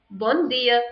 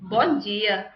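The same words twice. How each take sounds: First: "Bom dia" with a hard d, European Portuguese; European accent. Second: "Bom dia" with dia as "jee-a"; Brazilian accent. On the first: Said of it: "So in European accent". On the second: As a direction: soften the d of dia to a j, Brazilian style. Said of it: "In Brazilian accent". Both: Shown as a demonstration.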